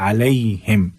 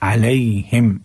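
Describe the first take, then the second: No difference in how they are said.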